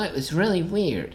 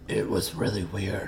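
First: Spoken in an ordinary, natural speaking voice. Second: Spoken in a deep, gravelly growling voice. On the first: "they talk more like this" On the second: "And not like this"

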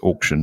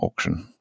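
First: Auction is said with the speaker's usual pronunciation. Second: Auction is said with a different, mocked pronunciation. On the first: The speaker calls it right. "it's auction" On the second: The speaker calls it wrong. "not auction"

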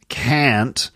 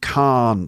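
First: It is said in an American accent. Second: It is said in a British accent, long ah. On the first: "That's it with an American accent" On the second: "And in a British accent"

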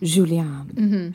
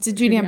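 First: The name is said with a French lilt. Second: The name is said with a plain English accent.

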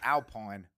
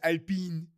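First: The name is pronounced the English way. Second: The name is pronounced the French way. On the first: "And in English, it's Alpine" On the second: "in French, it's Alpine"

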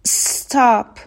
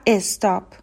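First: The word starts directly with the s sound. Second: A short e vowel is added before the s. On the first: The speaker calls it right. "حالا میخوایم سس رو بچسبونیم به حرف بعدی" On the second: The speaker calls it wrong. "ایرانی ها اکثرا میگن استرس و استاپ"

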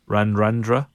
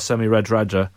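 First: The d sounds have an n before them. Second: The d sounds have no n before them. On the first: The speaker calls it right. "All the D's are N's, aren't they?" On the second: The speaker calls it wrong. "I've got the pronunciation wrong"

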